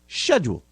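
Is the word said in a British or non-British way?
British. The word is said in a British way. The speaker calls it right. "but it's schedule"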